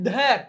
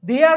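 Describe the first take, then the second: First: The words are contracted into one syllable. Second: Two separate words are said in full.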